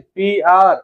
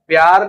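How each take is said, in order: First: The two letters are said separately and clearly. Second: The letters are run together as one syllable. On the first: The speaker calls it right. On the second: The speaker calls it wrong.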